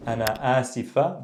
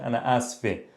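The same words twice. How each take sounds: First: Said in the usual way. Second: "asfe" in two syllables, ending in -eh; dialect pronunciation. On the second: Shown as a demonstration. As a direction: say "asfe" with the middle i dropped, final eh. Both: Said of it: "give you the dialect pronunciation".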